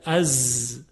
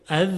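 First: A low, buzzing «از» said right; correct z. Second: «از» said with the tongue tip, the wrong way. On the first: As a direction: give the proper buzzing «از». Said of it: "نوک زبانی تلفظ نکنید". («از» درست و وزوزدار) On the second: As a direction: show the faulty tip-of-tongue «از». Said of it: "غلطه". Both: Shown as a demonstration.

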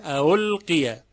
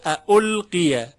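First: اولقیه with the second hamza softened into a u glide; loosened second onset in اولقیه; eased second hamza. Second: اولقیه slow and loud, with a clear catch before u; both hamzas sounded in slow اولقیه; full second hamza. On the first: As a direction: flow from a to u in اولقیه. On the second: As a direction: break firmly before the second vowel of اولقیه. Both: Shown as a demonstration.

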